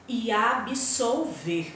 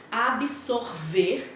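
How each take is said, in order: First: "absolver" said very slow, with a clear l; careful pronunciation. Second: "absorver" said very slow, with a clear r; careful pronunciation. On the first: Teacher reads "absolver" slowly, contrasting the l. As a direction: spell out "absolver" syllable by syllable. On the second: Teacher reads "absorver" slowly for the class. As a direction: spell out "absorver" syllable by syllable. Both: Shown as a demonstration. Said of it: "quando eu fiz a leitura".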